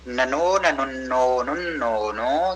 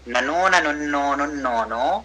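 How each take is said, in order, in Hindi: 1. यह वाक्यांश धीरे और ठहर-ठहर कर पढ़ा गया है। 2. यह वाक्यांश सामान्य पठन गति से पढ़ा गया है।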